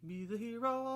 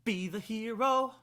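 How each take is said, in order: First: The first B sound is soft and weak. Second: The first B sound is hard and crisp. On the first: The speaker calls it wrong. "Not just be" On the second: The speaker calls it right. "I want a hard B"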